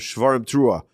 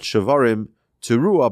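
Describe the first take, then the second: First: There is no pause between the two words. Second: There is a pause between the two words. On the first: The two sounds are blown in one breath. The speaker calls it right. "but rather shavarim teruah, to make a note for the one blowing that it's one breath" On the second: The two sounds are blown with separate breaths. The speaker calls it wrong. "not shavarim teruah"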